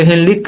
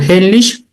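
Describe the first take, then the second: First: The name ends with a German-style 'ch' sound. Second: The name ends with an English-style 'sh' sound. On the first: The speaker calls it right. "en realidad se dice Hellig, que es en, en alemán" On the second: The speaker calls it wrong. "la pronunciamos en inglés"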